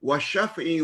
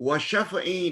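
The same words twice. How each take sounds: Both takes have the same delivery.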